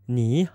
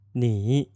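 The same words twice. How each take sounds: First: The syllable is said with a rising second tone. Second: The syllable is said with a dipping third tone. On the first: "we know that ni needs to become a second tone" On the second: "that would be ni with a third tone"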